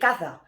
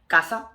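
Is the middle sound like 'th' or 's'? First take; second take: th; s. First: The middle sound is like English 'th'. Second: The middle sound is like English 's'.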